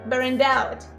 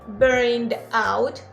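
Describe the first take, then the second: First: The final consonant links into the next vowel. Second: The two words are said separately, unlinked. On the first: The speaker calls it right. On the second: The speaker calls it wrong.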